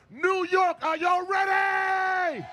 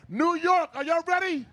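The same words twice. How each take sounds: First: Big crowd call, stretched out; fired-up shout. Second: Warm-up call. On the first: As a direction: rouse the whole crowd. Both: Real, not acted. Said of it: "I need to get fired up".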